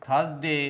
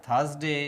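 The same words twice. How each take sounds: Both takes have the same delivery.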